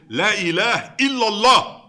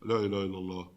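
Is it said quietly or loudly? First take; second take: loudly; quietly. First: It is said loudly and boldly. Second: It is said quietly and timidly.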